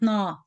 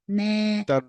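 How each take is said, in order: First: The nasal sound on the n is short. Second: The nasal sound on the n is long. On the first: The speaker calls it wrong. "Not na" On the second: The speaker calls it right. "the noon has longer غنة"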